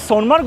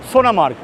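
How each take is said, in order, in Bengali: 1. এটি 'Son'-এর পরে কোনো স্বরধ্বনি ছাড়া উচ্চারিত হয়। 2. এটি 'Son'-এর পরে একটি স্বরধ্বনি সহ উচ্চারিত হয়। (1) "যদিও আমরা সোনমার্গ বলি" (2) "আসল প্রনাউন্সিয়েশনটা হলো সোনামার্গ"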